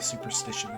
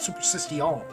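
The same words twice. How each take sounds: First: The word is said with its ordinary pronunciation. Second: The word is said with an odd, put-on pronunciation. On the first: "They don't say superstition" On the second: "they call it superstition"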